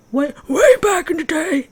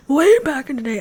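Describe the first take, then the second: First: High, loud put-on old man voice; old man's voice. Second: Raised, loud old-timer impression; old man's voice. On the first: Vlogger joking about running long ago, old man's voice. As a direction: do an exaggerated old-timer, pitched up and loud. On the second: Vlogger recalling old running days, old man's voice. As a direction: put on an old man reminiscing, high and loud. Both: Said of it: "that's my old, old man's voice".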